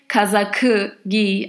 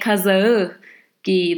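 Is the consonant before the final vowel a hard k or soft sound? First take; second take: hard k; soft. First: The middle consonant is a hard k sound. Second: The middle consonant is a soft gliding sound. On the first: The speaker calls it wrong. "I don't say kazakı giy" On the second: The speaker calls it right. "I say kazağı giy. That transforms into a softer one"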